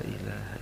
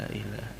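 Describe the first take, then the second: Both takes have the same delivery.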